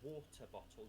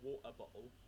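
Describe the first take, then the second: First: The t sounds are pronounced as clear t sounds. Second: The t sounds are replaced by glottal stops. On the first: "It's not a water bottle" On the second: "Those dialects replace the T with a glottal stop"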